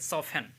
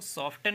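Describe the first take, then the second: First: The t sound is silent. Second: The t sound is pronounced. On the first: The speaker calls it right. "तो इसको सॉफन कहेंगे" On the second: The speaker calls it wrong. "इसको सॉफ्टन नहीं कहेंगे"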